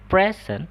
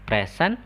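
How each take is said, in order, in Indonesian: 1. Tekanannya ada pada suku kata pertama. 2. Tekanannya ada pada suku kata kedua. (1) "kalau bilangnya present itu artinya dia hadiah" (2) "present itu artinya dia itu sebagai kata kerja ya, hadir"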